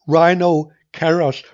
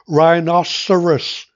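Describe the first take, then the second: First: It is said as two parts with a pause. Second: It is said as one smooth word.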